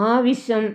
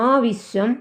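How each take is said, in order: The two takes are said the same way.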